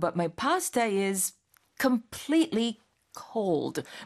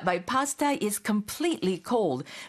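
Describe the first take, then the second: First: There is a pause before completely cold. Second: It is said without a pause before completely.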